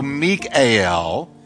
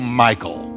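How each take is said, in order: First: The name is said the Hebrew way, three syllables. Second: The name is said the English way, fewer syllables. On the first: "if you want to get real Hebrew-esque, you can go Mikael... That's three syllables" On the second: "I decided just to anglicize her and go Michal"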